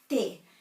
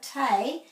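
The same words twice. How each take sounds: First: The vowel is short and stops quickly. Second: The vowel is drawn out long. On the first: The speaker calls it right. "it's te" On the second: The speaker calls it wrong. "this isn't te"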